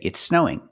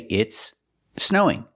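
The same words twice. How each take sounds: First: The two s sounds merge into one link. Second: The two words are said separately, unlinked. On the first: "It's more common to link the words and say" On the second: "you can separate the words and say"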